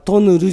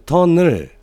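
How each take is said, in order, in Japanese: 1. 語末の子音は、素早く弾くRの音です。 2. 語末の子音は、伸ばすLの音です。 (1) "るっていうのは舌を上につけてから下にパッと引いてる" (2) "上をつけたままるっていうふうに言うのは正しい発音"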